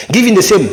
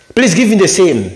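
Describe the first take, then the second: First: "same" said short, without stretching the A; higher pitch, ending on a short "same"; a quick "sem" for "same"; faulty short same. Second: "same" with the A pulled longer; higher start, then stretch the vowel of "same"; drawn-out A. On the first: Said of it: "C'est pas bon". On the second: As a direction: lengthen the A in "same". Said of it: "il faut tirer sur le A". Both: Shown as a demonstration.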